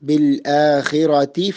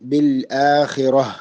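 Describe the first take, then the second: First: The word ends in a t sound, joined onward. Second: The word stops on a final h sound. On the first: The reciter continues into the next word. "താഇന്റെ ശബ്ദമാണ് കൂട്ടി വായിക്കുമ്പോൾ കേൾക്കേണ്ടത്" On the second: The reciter pauses on this word. "നിർത്തുകയാണെങ്കിൽ ഹ ആക്കി നിർത്തേണ്ടതാണ്"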